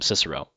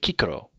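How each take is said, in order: First: Both C sounds are soft S sounds. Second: Both C sounds are hard K sounds. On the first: "In medieval Latin, they call him Cicero" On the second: "In classical Latin ... So there's always a hard C"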